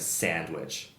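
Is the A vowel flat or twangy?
twangy. The A vowel is twangy. It is how people in Ontario say it. "where we have more like a, a twangier eh, ah sound"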